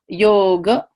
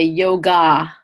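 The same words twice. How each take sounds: First: The word ends in a soft, short 'uh' vowel. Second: The word ends in a full open 'ah' vowel. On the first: The speaker calls it right. "that last ah is just a schwa sound" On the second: The speaker calls it wrong. "you'll never hear anyone say yoga"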